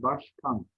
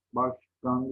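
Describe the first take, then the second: First: Said in the usual way. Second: "başkan" with g for k, başgan; voiced g inside "başkan"; misspelt form. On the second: Shown as a demonstration. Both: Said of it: "başkan değil".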